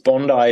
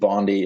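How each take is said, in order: First: It is said with an Australian pronunciation. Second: It is said with an American pronunciation. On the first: "if you're Australian" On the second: "if you're American"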